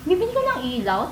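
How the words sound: It sounds sarcastic and doubting.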